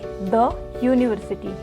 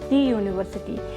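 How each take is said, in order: First: 'The' is said with a short 'thuh' vowel. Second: 'The' is said with a long 'thee' vowel. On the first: The speaker calls it right. "हम इसे यहाँ पर pronounce करेंगे द university" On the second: The speaker calls it wrong. "ना कि दी university"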